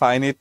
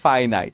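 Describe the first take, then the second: First: The last syllable sounds like 'nit'. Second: The last syllable sounds like 'nite'. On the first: The speaker calls it wrong. "ফাইনিট নয়" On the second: The speaker calls it right. "ফাইনাইট ঠিক আছে"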